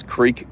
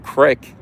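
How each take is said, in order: First: Creek with long ee; standard creek. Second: Crick with a short i; dialect creek. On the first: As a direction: say creek with a clear ee. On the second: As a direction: rhyme crick with brick. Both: Shown as a demonstration. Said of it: "you don't pronounce creek crick".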